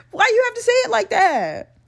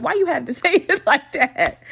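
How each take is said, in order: First: Very high-pitched comic wail; exasperated high protest. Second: Complaint breaking into a laugh midway; amused complaint. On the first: Podcaster objecting to his wording, high exasperated wail. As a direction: repeat it as a high, exaggerated complaint. Repeats complaint in high whine. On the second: Podcaster objecting to his wording, laughing complaint. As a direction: start protesting, then crack up. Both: Real, not acted.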